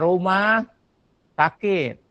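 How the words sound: The two words are split by a break. It means a house that is sick. The speaker calls it wrong. "Nggak boleh rumah sakit. Nanti rumah yang sakit"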